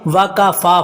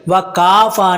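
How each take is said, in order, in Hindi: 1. आख़िरी अक्षर का स्वर लंबा है। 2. आख़िरी अक्षर का स्वर छोटा है। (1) "फ़ा को लंबा करना है" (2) "वकाफ़ा नहीं है"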